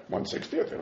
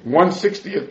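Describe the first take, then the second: First: "One sixtieth" breathed in a whisper, no voice; soft voiceless "One sixtieth" under the breath. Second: Said in the usual way. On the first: Shown as a demonstration. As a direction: drop to a hushed aside on "One sixtieth". Quoting the Gemara, then repeating it.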